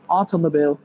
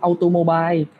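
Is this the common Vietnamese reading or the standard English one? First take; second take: standard English; common Vietnamese. First: It is pronounced the standard English way. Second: It is pronounced the common Vietnamese-learner way. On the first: The speaker calls it right. "Thì nó là automobile" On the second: The speaker calls it wrong. "đa số người Việt Nam mình sẽ đọc là automobile"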